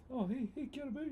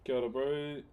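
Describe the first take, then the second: First: Put-on high, cheery Māori accent greeting; friendly Māori voice. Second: Said in the usual way. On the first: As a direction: greet him warmly, Kiwi Māori style. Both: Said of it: "Said in a friendly Māori voice".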